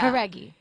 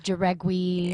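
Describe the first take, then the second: First: The name begins with an H sound. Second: The name begins with a J sound. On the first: The speaker calls it right. "so it's a h. Howdy" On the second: The speaker calls it wrong. "I've gotten"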